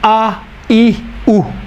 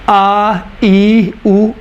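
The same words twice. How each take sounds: First: The vowels are short and clipped. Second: The vowels are drawn out long. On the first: "छोटी हरकत का तलफ़ुज़ है" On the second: "बड़ी हरकत का तलफ़ुज़ है"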